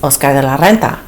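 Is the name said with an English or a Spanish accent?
Spanish. The name is said with a Spanish accent. "But really it's"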